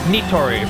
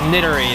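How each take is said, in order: First: The vowels are full and clear, Japanese-style. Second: The vowels are reduced, English-style. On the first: The speaker calls it right. "it's nitori" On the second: The speaker calls it wrong. "it's not nittery"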